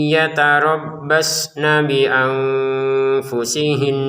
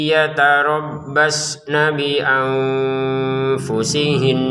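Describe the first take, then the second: Both takes have the same delivery.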